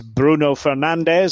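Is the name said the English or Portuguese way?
English. The name is said with English pronunciation. "People just looked at the name and thought, I I read it as"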